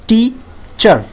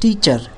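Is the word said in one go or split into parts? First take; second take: split; one go. First: The two syllables are said separately with a break. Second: The two syllables are said smoothly without a break.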